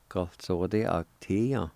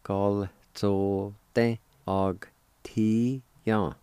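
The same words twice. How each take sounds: First: Said in the usual way. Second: Very slow, separated syllables. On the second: Shown as a demonstration. Teacher joining both parts of janitor, syllable by syllable. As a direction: sound out the whole word one syllable at a time. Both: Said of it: "it'll sound like this".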